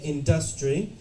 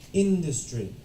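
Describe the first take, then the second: First: The stress falls on a later syllable. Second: The stress is on the first syllable. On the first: The speaker calls it wrong. "if you say industry, obviously I still understand" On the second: The speaker calls it right. "The stress is on the in"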